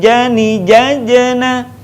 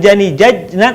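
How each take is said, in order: First: Slow chanted "jajena" with a rebounding j before na; bouncing J. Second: "jajna" with the j stopped dead before na; unbounced J. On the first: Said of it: "suaranya mantul". ("jajena" dilantunkan, huruf j memantul) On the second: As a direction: cut the middle j of "jajna" short, no rebound. ("jajna" tanpa pantulan huruf j) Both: Shown as a demonstration.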